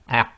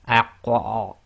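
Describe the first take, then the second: First: The final q has no audible release echo. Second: The final q ends with a strong, exaggerated echo. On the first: "if you try to say it without the slight echo, you cannot complete the sound" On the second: "you don't overdo it like aq or overemphasizing"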